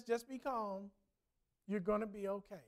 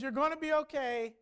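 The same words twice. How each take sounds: First: Softly voiced reassurance, a touch hushed; retold whisper. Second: Said in the usual way. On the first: Stranger calming a woman in a crowd, softly. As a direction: hush it gently like calming her. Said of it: "just whispers into her ear". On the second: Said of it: "And he says".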